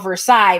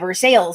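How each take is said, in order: First: It is said the standard, French-like way. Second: It is said the way locals pronounce it.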